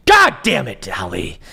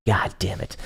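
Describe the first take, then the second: First: Real exasperated yell at a viewer; frustrated outburst. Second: Said in the usual way. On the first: Real, not acted. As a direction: snap it out in exasperation.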